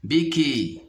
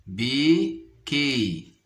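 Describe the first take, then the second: First: Said in the usual way. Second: "béquille" very slowly, bé, pause, quille; syllable by syllable. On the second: Shown as a demonstration. Teacher locating a sound for pupils, "béquille" split apart. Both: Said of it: "dans la deuxième syllabe".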